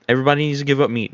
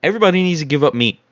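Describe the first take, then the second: First: Very fast, tumbling decree; rapid-fire repeat. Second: Rushed. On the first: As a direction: rattle it off even quicker. Repeated even faster. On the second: Rapid retold church decree. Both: Retold or imitated.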